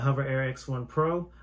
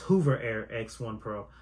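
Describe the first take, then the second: First: The first vowel is a short 'uh' sound. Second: The first vowel is a long 'oo' sound. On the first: The speaker calls it right. "the Hover Air X1 Pro" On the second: The speaker calls it wrong. "I was pronouncing it as Hoover Air X1 Pro"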